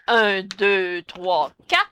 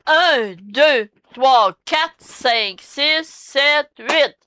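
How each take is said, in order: First: Alternative count. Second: Dance-teacher count, each number set apart; firm, measured count with gaps between numbers; counting out beats. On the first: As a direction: count the beats out in a lowered voice. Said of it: "Ou encore, on dit". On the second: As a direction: count evenly up to "huit". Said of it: "c'est parce qu'on dit". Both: Shown as a demonstration.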